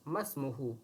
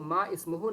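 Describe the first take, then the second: First: The two words are joined, hamza dropped. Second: The two words are said separately, hamza kept. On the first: The speaker calls it right. "मीम को सीन से मिला देंगे तो कहेंगे मस्मुहु" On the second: The speaker calls it wrong. "इसको मा इस्मुहु नहीं पढ़ेंगे"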